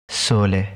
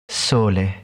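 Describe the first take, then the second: The two takes are said the same way.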